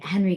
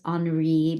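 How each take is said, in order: First: The name is given an American pronunciation. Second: The name is given a French pronunciation. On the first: The speaker calls it right. "it's pronounced the American way" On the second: The speaker calls it wrong. "a lot of people think it's Henri because of the spelling"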